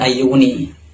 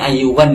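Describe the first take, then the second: First: The word ends with a final 'i' vowel. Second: The word ends with a final 'a' vowel. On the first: The speaker calls it wrong. "bukan ayyuni" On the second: The speaker calls it right. "yang benar ini ayyuwan ya bacanya"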